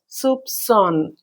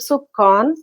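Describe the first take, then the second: First: The middle consonant is an S sound. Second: The middle consonant is a K sound. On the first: The speaker calls it right. "it should be pronounced as a s sound" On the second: The speaker calls it wrong. "Naturally, by looking this word soup, we pronounce it as"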